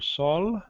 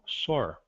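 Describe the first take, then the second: First: The word ends with an l sound. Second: The word ends with an r sound. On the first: "Pode ser pronunciada como L" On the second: "ou R"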